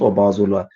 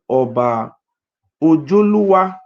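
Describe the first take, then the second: First: The name is said with a z sound. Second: The name is said with a j sound. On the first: This is how the name is written. The speaker calls it wrong. "It's not Oba Ozolua" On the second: This is the real name. The speaker calls it right. "The real name of Oba Ozolua is called Oba Ojoluwa"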